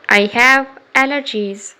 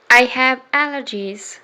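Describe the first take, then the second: No difference in how they are said.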